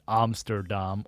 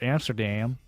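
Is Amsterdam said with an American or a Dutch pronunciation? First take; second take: Dutch; American. First: It is said with a Dutch pronunciation. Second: It is said with an American pronunciation.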